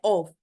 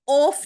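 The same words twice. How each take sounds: First: The word ends with a voiced v sound. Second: The word ends with a voiceless f sound. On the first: The speaker calls it right. "यानी एफ की sound व में निकलती है" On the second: The speaker calls it wrong. "ये ऑफ नहीं होता"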